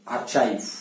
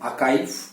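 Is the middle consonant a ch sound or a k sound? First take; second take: ch; k. First: The middle consonant is a ch sound. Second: The middle consonant is a k sound. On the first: The speaker calls it wrong. "ज्यादातर लोग इसका उच्चारण करते हैं आर्चाइव" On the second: The speaker calls it right. "इसका सही उच्चारण है आकाइव"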